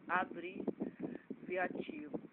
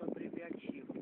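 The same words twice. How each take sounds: First: "Abreviativo" drawn out slowly, piece by piece; slow careful repeat. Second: Said in the usual way. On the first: Real, not acted. Teacher repeating a term from the evangelism course, "Abreviativo" said very slowly. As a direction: stretch "Abreviativo" right out, breaking it up.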